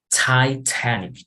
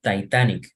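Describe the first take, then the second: First: The first T is strong, almost spat out. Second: The first T is soft and weak. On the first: The speaker calls it right. "like spitting" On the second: The speaker calls it wrong. "not Titanic"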